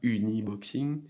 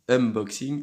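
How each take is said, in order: First: The word has an extra vowel after 'un'. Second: The word has no extra vowel after 'un'. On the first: The speaker calls it wrong. "je le prononce mal" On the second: The speaker calls it right. "unboxing et pas uniboxing"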